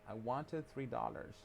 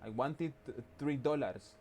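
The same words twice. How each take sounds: First: It is spoken with an American accent. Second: It is spoken with a Spanish accent. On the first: The speaker calls it right. "reducir tu acento español y sonar más como gringo" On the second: The speaker calls it wrong. "si pronuncias como, como en español ... suena raro"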